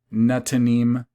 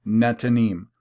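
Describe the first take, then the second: No difference in how they are said.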